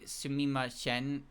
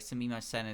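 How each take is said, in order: First: The first sound is slurred like 'ch'. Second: The first sound is a clear 's'. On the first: "hearing her say sumimasen, sumimasen instead of like sumimasen is just kind of the way she would slur" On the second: "instead of like sumimasen"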